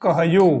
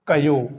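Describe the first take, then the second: First: Said in the usual way. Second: कयो with the ह dropped; Marwari pronunciation. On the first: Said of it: "हकार का लोप". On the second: Shown as a demonstration. Teacher shows Marwari dropping the ह. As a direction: say कयो, no breath sound between क and यो. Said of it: "तो होगा मारवाड़ी में".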